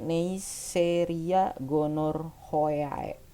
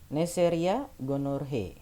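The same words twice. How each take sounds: First: Every letter of the ending is sounded out. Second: The ending is shortened, not every letter sounded. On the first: "kamu bacanya harusnya Neisseria gonorrhoeae, hoea gitu" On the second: "Tapi dibacanya gitu"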